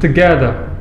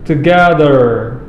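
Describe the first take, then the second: First: It is said in a British accent. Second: It is said in an American accent. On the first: "Kalau British" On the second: "kalau American"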